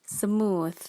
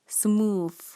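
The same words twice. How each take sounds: First: It is said with a standard pronunciation. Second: It is said with a Malaysian-style pronunciation. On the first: The speaker calls it right. "But the correct pronunciation is smooth" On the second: The speaker calls it wrong. "Many Malaysian will pronounce this word as smooth"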